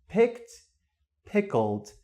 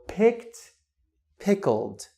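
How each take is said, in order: No difference in how they are said.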